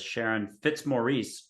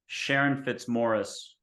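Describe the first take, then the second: First: The name is pronounced in an Americanized way. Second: The name is pronounced in its original way. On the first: The speaker calls it wrong. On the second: The speaker calls it right.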